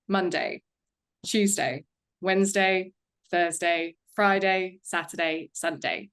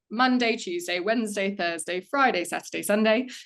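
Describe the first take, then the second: First: The voice is lower and sharper in pitch. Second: The voice is at a higher, lighter pitch.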